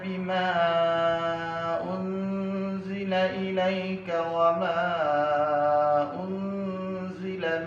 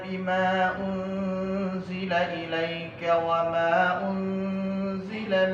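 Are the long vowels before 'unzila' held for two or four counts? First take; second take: Four counts; Two counts. First: The long vowels are held for four counts. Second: The long vowels are held for two counts. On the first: "mad jaiz munfasil empat harakat" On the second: "qasr, mad jaiz munfasil"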